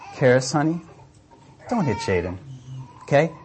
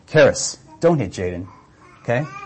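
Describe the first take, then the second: First: The tone is soft and gentle. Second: The tone is firm and stern. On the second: "it's a simple change of tone from"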